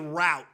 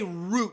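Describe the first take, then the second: First: The word has the Midwest pronunciation. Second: The word has the East Coast pronunciation. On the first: The speaker calls it wrong. "We're not from the Midwest. We don't say route" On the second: The speaker calls it right. "We say route, in the East Coast"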